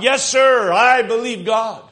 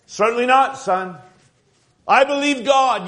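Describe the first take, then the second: First: Put-on louder and higher, a boy repeating his father with zeal; eager echo. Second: Louder, higher, ringing with faith; confident father. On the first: Son echoing his father's faith, eager loud affirmation. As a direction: echo it back, full of conviction. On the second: Acted. Father reassuring his son during the plague, bold confident declaration. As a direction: declare it like a proud believing dad.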